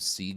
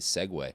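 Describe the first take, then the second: First: It is said as one syllable, like 'seeg'. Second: It is said as two syllables, like 'seg-way'. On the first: The speaker calls it wrong. "Sieg isn't the right way to say segue" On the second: The speaker calls it right. "the right way to say segue"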